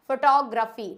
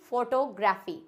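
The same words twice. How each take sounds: First: फोटोग्राफी as fuh-TOG-ra-fee, loud; correct pronunciation. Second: फोटोग्राफी as fo-to-GRAA-fee; wrong pronunciation. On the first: Teacher giving the corrected form, फोटोग्राफी as "fuh-TOG-ra-fee". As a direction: stress "tog" in फोटोग्राफी, weak first vowel. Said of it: "ये होता है फोटोग्राफी". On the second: Teacher rejecting the common mistake, फोटोग्राफी as "fo-to-graafi". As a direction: say फोटोग्राफी with full "fo-to", then "graafi". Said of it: "ना कि फोटोग्राफी". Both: Shown as a demonstration.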